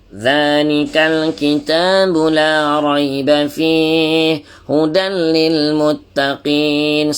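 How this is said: The voice comes out strongly through the nose. "Ada orang dia keluar kat hidung lebih"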